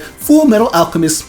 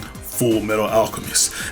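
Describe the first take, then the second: First: It is said in a bubbly, jovial narrator voice. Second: It is said in a cool, smooth narrator voice. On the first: "Bubby Jovial narrator be like" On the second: "cool narrator saying"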